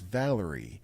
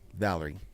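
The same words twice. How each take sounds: First: The name is pronounced clearly and crisply. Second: The name is pronounced in a slurred way. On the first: The speaker calls it right. "Her name is Valerie" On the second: The speaker calls it wrong. "not Valerie"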